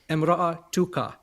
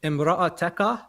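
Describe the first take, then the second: First: The vowel after the 't' is 'u'. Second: The vowel after the 't' is 'a'. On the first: The wife is in the nominative case. "or an u" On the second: The wife is in the accusative case. "So it's like an a"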